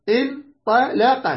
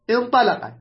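First: انطلق slowed right down, in- ta- la-qa; syllable by syllable. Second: Said in the usual way. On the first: Shown as a demonstration. Teacher giving a five-letter example, slowly syllabified. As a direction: sound out انطلق in separate slow pieces.

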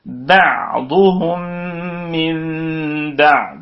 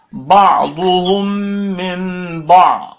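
First: "بعضهم من بعض" very slow, each ع given its moment; clear ayn demo. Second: "بعضهم من بعض" slow, with ب and ع smudged together; swallowed ayn, wrong way. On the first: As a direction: draw out "بعضهم من بعض", keeping every ع distinct. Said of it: "الكلمات المشهورة فيها العين نقول". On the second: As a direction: show the mistake: lose the ع inside "بعضهم من بعض". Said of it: "راحت العين وراحت الباء". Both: Shown as a demonstration.

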